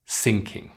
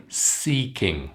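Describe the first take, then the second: First: "sinking" with a short i in the first syllable. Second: "Seeking" with a long ee in the first syllable. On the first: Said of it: "the long E sound and the short I". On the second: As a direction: stretch the ee of "Seeking". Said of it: "can you say these word pairs". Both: Shown as a demonstration.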